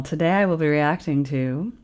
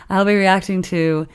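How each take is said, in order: First: Smooth broadcast announcer read. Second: Said in the usual way. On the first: Shown as a demonstration. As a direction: intro it like a radio host. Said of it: "do you like that announcer voice". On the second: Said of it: "repeats the intro in own voice".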